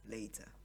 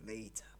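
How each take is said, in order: Both takes have the same delivery.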